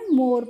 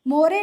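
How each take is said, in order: First: The word ends on the r with no vowel. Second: The word ends with an extra e vowel sound. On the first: The speaker calls it right. "मोर पढ़ते हैं" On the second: The speaker calls it wrong. "इसीलिए हम इसको मोरे नहीं पढ़ते हैं"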